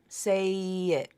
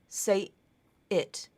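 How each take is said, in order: First: The two vowels glide together without a stop. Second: A glottal stop separates the two words. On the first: The speaker calls it right. "I must be linking it" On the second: The speaker calls it wrong. "that's not linked. There's a stop there"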